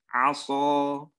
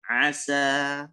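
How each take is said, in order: First: The s sound is thick and heavy. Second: The s sound is thin and light. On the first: The speaker calls it wrong. "Itu yang salah" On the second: The speaker calls it right. "Yang benar seharusnya dia baca dengan asa"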